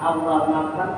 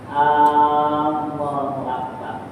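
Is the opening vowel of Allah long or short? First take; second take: short; long. First: The opening vowel of Allah is short. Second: The opening vowel of Allah is drawn out long.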